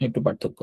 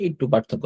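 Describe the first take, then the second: First: Whispered repeat. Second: Said in the usual way. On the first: Shown as a demonstration. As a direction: whisper "একটু পার্থক্য" softly, no voice. Repeats the phrase, second take quiet. (ফিসফিস করে আবার বলা)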